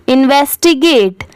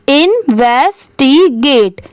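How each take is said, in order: First: Said in the usual way. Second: इन्वेस्टिगेट slowly split as इन-वेस-टी-गेट; syllable by syllable. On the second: Shown as a demonstration. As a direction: sound out इन्वेस्टिगेट part by part. (इन्वेस्टिगेट को धीरे-धीरे टुकड़ों में बोलें) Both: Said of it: "अब पूरा मिला देंगे".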